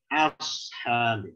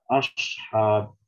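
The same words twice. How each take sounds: First: The hamza and final h stay thin and light. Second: The hamza and final h sound heavy and thick. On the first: The speaker calls it right. "Yang benar ashab" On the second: The speaker calls it wrong. "Ini contoh yang salah"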